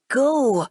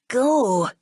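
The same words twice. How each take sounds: First: Louder, higher, barked repeat; forceful command. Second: Louder, fierce one-word warning; snarl. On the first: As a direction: shove her off with the word. Boy repeats, pushing her. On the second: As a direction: snarl to drive her away. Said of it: "he snarls". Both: Acted.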